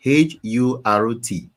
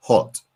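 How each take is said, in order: First: "H U R T" spelled letter by letter, slowly. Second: Said in the usual way. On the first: Shown as a demonstration.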